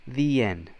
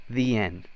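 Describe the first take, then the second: Both takes have the same delivery.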